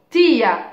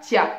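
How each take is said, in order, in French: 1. Les deux voyelles sont séparées en deux syllabes distinctes. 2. Les deux voyelles glissent ensemble en une seule syllabe. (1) "on dit tio, tia" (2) "on ne dit pas tia"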